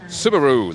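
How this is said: It is said the American way, ending like kangaroo. "the U S pronunciation is more like Subaru, like kangaroo"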